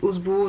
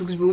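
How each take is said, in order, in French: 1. On le dit avec un s simple, pas de k. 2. On le dit avec un k avant le s. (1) "il y en a qui disent"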